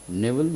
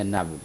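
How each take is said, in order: First: نیول with "ay" first, "NAY-vul"; closer variant of نیول. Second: نیول with open first vowel, "NAV-il"; open variant of نیول. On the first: Teacher repeating both options to learners, نیول said as "nevul". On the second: Teacher repeating both options to learners, نیول said as "navil". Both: Shown as a demonstration. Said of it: "نیول یا نیول".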